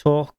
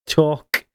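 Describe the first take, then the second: First: "Talk" with a clean K, no throaty ch ending; a forced clean "Talk"; talk without the ch. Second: "talk" said again with a clean hard K; a second effortful clean "talk"; talk, second try. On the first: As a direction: try a careful "Talk" with a hard ending. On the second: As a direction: try "talk" once more, carefully. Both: Shown as a demonstration. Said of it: "say talk without the ch".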